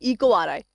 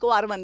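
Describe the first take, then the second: First: The final part is pronounced as 'eye'. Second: The final part is pronounced as 'one'. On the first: This is how some other teachers name it. "Ma'am के teachers को क्या बोलते हैं? इको आर आई।" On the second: This is how the speaker's own teachers named it. "मेरे मुंह से हमेशा इको आर वन निकलता है"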